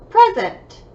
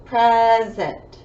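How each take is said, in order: First: Said in the usual way. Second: "Present" drawn out into two beats; syllable by syllable. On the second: Shown as a demonstration. Teacher counting syllables for pupils, "Present" broken in two. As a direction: stretch each syllable of "Present". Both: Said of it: "Two syllables".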